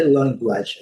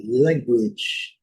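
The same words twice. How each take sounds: First: "language" with a full A in the last syllable; mistaken pronunciation. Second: "language" drawn out slowly, ending "gwidge"; corrected pronunciation. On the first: Teacher showing the common mistake, "language" ending with open A. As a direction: say "language" wrongly as "LAN-gwadge". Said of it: "Não é language". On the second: Teacher correcting the mistake, "language" slow with A as I. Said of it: "é language". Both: Shown as a demonstration.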